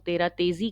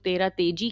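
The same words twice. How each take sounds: First: तेजी said with a Z, "te-zee"; तेजी with a Z sound, not J. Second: तेजी said with a J, "te-jee"; तेजी with a J sound, not Z. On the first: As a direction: pronounce the middle of तेजी as a buzzing Z. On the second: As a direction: pronounce the middle of तेजी as a hard J. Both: Shown as a demonstration. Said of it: "बहुत से लोग तेरह तेजी कहते हैं".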